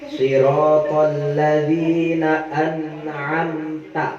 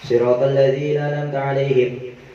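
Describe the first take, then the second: First: It is recited slowly. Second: It is recited fast.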